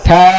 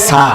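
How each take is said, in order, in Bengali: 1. বর্ণটি জিহ্বার আগা দাঁতে ঠেকিয়ে শুরু হয়। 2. বর্ণটি একটি হিসহিসে s ধ্বনি দিয়ে শুরু হয়। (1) "জিহ্বার আগা দাঁতের আগা থা" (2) "অনেকে পড়ে সা, ... সা এটা হবে না"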